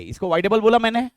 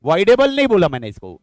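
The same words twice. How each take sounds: First: बोला pushed up as the main beat; stress on बोला. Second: Voidable and नहीं hit loud and firm; stress on voidable नहीं. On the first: Teacher to students, testing them: बोला stressed. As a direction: lean on the word बोला, voidable unstressed. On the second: Teacher correcting students' idea: voidable नहीं stressed. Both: Shown as a demonstration.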